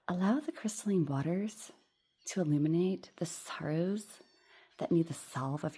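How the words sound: The S sounds are softened, lengthened and hissy.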